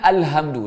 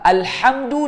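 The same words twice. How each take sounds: First: The h is a plain, light sound. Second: The h is a harsh, throaty sound. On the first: The meaning changes. The speaker calls it wrong. "Kalau bertukar dengan ha simpul, dia makna dia jadi berubah" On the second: It means praise. The speaker calls it right. "ha dengan ha"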